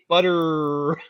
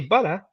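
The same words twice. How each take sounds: First: It is said with an American accent. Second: It is said without an American accent. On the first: The speaker calls it right. "to talk like an American, ... you say butter" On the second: The speaker calls it wrong. "you don't say butter"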